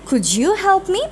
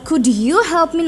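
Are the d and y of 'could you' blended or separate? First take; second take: blended; separate. First: The d and y blend into a j sound. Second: The d and y are said as separate sounds. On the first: "আমাদের স্পিকিংটাকে আরও একটু সুন্দর করার জন্য" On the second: "না বলে"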